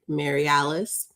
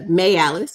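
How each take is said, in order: First: The name is said fully, in plain careful speech. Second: The name is said fast, in a Southern accent.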